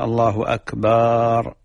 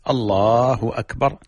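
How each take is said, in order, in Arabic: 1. يُمَدّ صوت الباء في "akbar" فيُنطق طويلًا. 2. يُنطق صوت الباء في "akbar" قصيرًا. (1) "الإشباع حرف الباء في أكبر يغير المعنى" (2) "هكذا الله أكبر"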